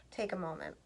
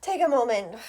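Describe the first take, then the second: First: Breathy sigh, voice gone to a whisper, quick; softly sighed, barely voiced. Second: Said in the usual way. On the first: Shown as a demonstration.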